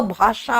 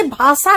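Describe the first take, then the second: First: भाषा slowly, with a clear sh; slow, careful sh in भाषा; correct sh sound. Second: भाषा as "bhaasa", with a plain s; plain s in the middle of भाषा; wrong s for sh. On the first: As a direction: say bhaa-SHA for भाषा, drawn out. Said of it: "अरे, भाषा नहीं होता". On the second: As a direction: say भाषा with s instead of sh. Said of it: "वो भाषा होता है". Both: Shown as a demonstration.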